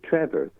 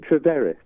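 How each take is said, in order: First: The name is said like an ordinary English name. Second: The name is said in a foreign-sounding way. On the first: The person has a standard English name. "then it's just a standard English name" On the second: The person may come from Cornwall or Trier. "he sounds quite exotic"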